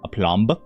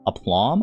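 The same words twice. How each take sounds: First: The word ends with an audible B sound. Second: The word ends on the M sound. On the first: "unless you're supposed to pronounce the B" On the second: "I might be saying it wrong too"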